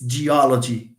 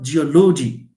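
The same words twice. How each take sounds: First: The stress is on the third-to-last syllable. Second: The stress is not on the third-to-last syllable. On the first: The speaker calls it right. "It's geology" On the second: The speaker calls it wrong. "It's not geology, no?"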